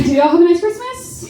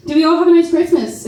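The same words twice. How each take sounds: First: Calling to the crowd. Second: Said in the usual way. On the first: Real, not acted. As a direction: lift the pitch to rally the whole room. Asks the crowd again, louder tune.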